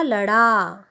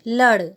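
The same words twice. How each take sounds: First: लड़ा with a drawn-out final aa; long final vowel. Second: लड़ with a short a; careful one-syllable लड़, brief vowel. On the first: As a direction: stretch the end of लड़ा. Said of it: "जिसमें आ की मात्रा लगी है". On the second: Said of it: "पहले हम उच्चारण करते हैं". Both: Shown as a demonstration.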